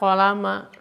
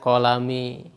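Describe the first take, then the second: First: The word ends with the vowel a. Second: The word ends with the vowel i. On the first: The speaker calls it right. "kita harus membacanya fathah" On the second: The speaker calls it wrong. "Tidak boleh kita membacanya"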